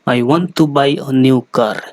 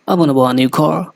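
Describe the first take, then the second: First: Spoken in an East Asian accent, each word distinct. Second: Spoken fast in an English accent, middle words blurred. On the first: "Japanese और Chinese की बात करें तो ... वो इस तरीके से बोलेंगे" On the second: "जो अंग्रेज़ होते हैं"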